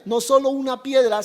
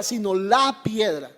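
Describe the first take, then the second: First: Said in the usual way. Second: "la" stressed as the definite article in "la piedra". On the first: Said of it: "está hablando de la piedra". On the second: Shown as a demonstration. Preacher explaining the definite article, stressing "la". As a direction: lean on "la", not on "piedra". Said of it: "Es un artículo definido".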